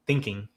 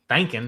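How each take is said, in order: First: Said in the usual way. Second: "thinking" drawn Southern, as "thankin'"; Tennessee accent. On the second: Real, not acted. Nashville speaker owning his word "thinking" as "thankin'", Tennessee accent. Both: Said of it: "I'm from Tennessee".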